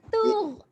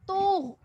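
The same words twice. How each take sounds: First: The consonants are light, with a thin, plain sound. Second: The consonants are heavy, with a thick, velarized sound. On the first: The speaker calls it wrong. "bukan tugh" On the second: The speaker calls it right. "bunyi dia akan jadi tugh"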